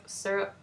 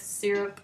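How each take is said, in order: First: Syrup slurred to "SUR-up", r-coloured first vowel; lazy two-beat syrup, "surp". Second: Syrup said "SEER-up", crisp first syllable; careful Syrup as "sih-rup"; Syrup with "sir-up", full "i" vowel. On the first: Showing her quicker way, syrup as "sur-up". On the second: Showing her first way, careful Syrup. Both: Shown as a demonstration. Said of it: "I kinda do both".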